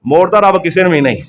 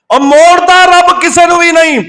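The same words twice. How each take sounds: First: Said in the usual way. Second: High, sustained proclamation; impassioned preaching cry. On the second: Real, not acted. Preacher assuring the congregation nobody is turned away, impassioned cry. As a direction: cry it out high, stretching the words. Preacher repeats line with force.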